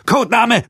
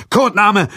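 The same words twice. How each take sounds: First: Bellowed order, much higher and louder; barked drill commands. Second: Shouted demand, higher and louder; barked drill commands. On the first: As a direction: bark it like a drill sergeant. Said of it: "brüllte der Feldwebel". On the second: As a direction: bark the demand like an order. Soldier demands again. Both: A narrator's reading. (gebrüllter Befehl)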